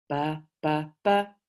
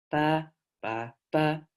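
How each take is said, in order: First: The pitch goes low, low, then high. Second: The pitch goes high, low, then high.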